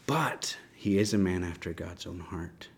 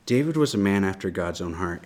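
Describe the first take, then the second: First: Soft whisper, no voice behind it. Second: Said in the usual way. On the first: Real, not acted. Teacher to the class about David, whispered. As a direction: breathe it out, hushed and earnest. Repeats key line, hushed for emphasis.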